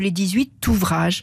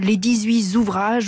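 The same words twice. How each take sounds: First: No z sound links dix-huit to ouvrages. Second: A z sound links dix-huit to ouvrages. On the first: The speaker calls it right. "au lieu de" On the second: The speaker calls it wrong. "une liaison erronée en Z"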